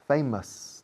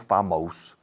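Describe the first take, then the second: First: The last syllable has a reduced, short vowel. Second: The last syllable has a full 'o' vowel. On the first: The speaker calls it right. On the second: The speaker calls it wrong. "no famos"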